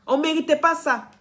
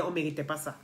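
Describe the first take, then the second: First: Pas hit higher and louder, falling; stress on pas. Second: Said in the usual way. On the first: Real, not acted. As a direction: insist hard on pas. Repeats the line to insist.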